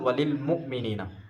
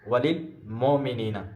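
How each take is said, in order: First: The first vowel of muminina is a u. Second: The first vowel of muminina is an o. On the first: The speaker calls it right. "असल" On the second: The speaker calls it wrong. "मजहूल तरीके से"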